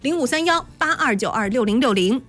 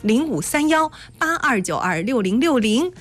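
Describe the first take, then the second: First: The number is read at normal speed. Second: The number is read more slowly.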